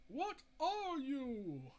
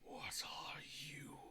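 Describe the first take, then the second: First: Slow, higher, louder demanding question; Mira's demand. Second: Low, slow, breathless creature whisper. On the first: Mira confronting the creature, slow and higher pitched. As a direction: stretch it out as a challenge. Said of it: "And then says". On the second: Trench creature echoing Mira, in a low slow whisper. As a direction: echo her words back like a hissing thing. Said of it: "the creature responds". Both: Retold or imitated.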